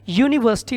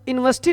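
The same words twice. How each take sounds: First: The word begins with a y sound. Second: The word begins with a plain vowel sound. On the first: The speaker calls it right. "यूनिवर्सिटी होता है" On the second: The speaker calls it wrong. "आप pronunciation ही गलत बोलते हो। यूनिवर्सिटी नहीं होता है"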